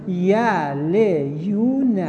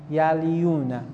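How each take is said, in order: First: Drawn out syllable by syllable, x0.3; slowly sounded out. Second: Said in the usual way. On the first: Shown as a demonstration. Teacher sounding out the word for a student, slowly drawn out. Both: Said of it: "ایشون میگه اینجوری بنویسیدش".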